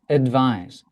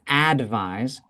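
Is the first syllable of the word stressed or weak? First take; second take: weak; stressed. First: The first syllable is weak and unstressed. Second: The first syllable is given full stress. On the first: The speaker calls it right. "it's just advise" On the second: The speaker calls it wrong. "it's not advise"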